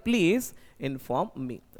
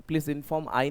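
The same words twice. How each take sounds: First: Very slow, each word of "Please inform me" drawn out; slow correct version. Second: Said in the usual way. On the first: Shown as a demonstration. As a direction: dictate the right answer slowly, word by word. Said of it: "क्या बोलना पड़ेगा?". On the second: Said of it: "नहीं बोल सकते".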